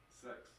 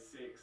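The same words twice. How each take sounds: First: It is said in a New Zealand accent. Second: It is said in an Australian accent.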